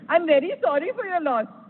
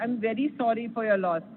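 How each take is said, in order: First: It is said in a cheerful, mocking tone. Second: It is said in a sad, sincere tone.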